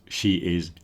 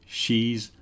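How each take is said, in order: First: Both words are said fully and separately. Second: The words are merged into one syllable.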